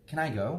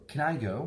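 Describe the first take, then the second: The two takes are said the same way.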